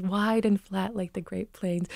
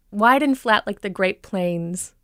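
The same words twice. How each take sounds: First: Wide, flat Minnesota vowels; Minnesota accent. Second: Said in the usual way. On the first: Shown as a demonstration. Coach quoting how it was described, Minnesota accent. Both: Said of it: "The Minnesota accent is".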